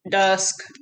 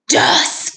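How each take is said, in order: First: It is said in a flat, mechanical voice. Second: It is said in a deep, growly voice. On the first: "Can you say it in a robot voice?" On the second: "Can you say it in a monster voice?"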